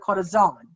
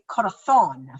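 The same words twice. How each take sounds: First: The z is said with a hissing s-like sound. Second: The z is said with a lisped th sound. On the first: This is how it is said in Mexico. "in Mexico, they would say ... because they say the Z" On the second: This is how it is said in Spain. "But in Spain, they would say corazón, thon"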